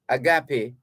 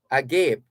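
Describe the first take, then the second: First: It uses the pronunciation for the love meaning. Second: It uses the pronunciation for the open-mouthed meaning. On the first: It means a selfless, spiritual kind of love. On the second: It means a mouth wide open in surprise. "you don't say agape, you say agape"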